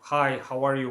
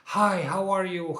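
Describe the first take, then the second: First: It is said in a calm, quiet way. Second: It is said in an excited, manic way.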